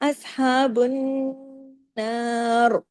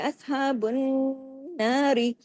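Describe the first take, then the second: First: It stops on a heavy, full r. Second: It runs on with a light, thin r. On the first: The reader stops at this word. "अगर हम रोक रहे हैं ... रा हैवी होगा" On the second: The reader continues without stopping. "मिला के पढ़ेंगे ... तो फिर रा बारीक होगा"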